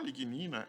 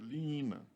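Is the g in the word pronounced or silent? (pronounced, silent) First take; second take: pronounced; silent. First: The g sound is pronounced. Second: The g sound is left out. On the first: "vamos usar como está aqui" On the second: "a pronúncia da palavra, isso vem do francês, é lignina. O G não se pronuncia"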